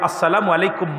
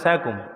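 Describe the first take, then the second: First: The greeting is said in full, every syllable. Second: The greeting is clipped to a short slurred form. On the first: The speaker calls it right. "আসসালামু আলাইকুম মা" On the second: The speaker calls it wrong. "সালামটা ঠিক মতো না"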